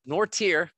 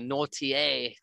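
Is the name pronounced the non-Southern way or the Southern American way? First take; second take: Southern; non-Southern. First: The name has a Southern American pronunciation. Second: The name has a non-Southern pronunciation. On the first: The speaker calls it right. "because we're in Arkansas in the United States" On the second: The speaker calls it wrong. "we don't say the Nortier flavor of things"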